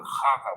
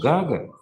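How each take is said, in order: First: The word begins with a breathy H sound. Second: The word begins with a hard G sound. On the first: This is how the locals say it. "а у них это Хага, ... Х буква ... используется вместо Г" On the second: This is how the speaker said it himself. "Я говорю Гага"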